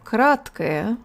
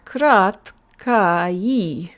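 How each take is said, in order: First: The final two vowels are weak, reduced schwas. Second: The final two vowels sound like clear 'a-i'. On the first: The speaker calls it right. "We use schwa schwa at the ends of adjectives like this" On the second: The speaker calls it wrong. "this should be sounding like краткаи. But that is not how this word is pronounced"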